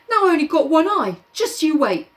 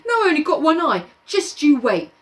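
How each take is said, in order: First: High whiny Piggy; whiny threat. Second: High fast whine; whiny threat. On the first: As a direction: whine the threat. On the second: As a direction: whine it quickly. Piggy threatening Jack. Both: Acted.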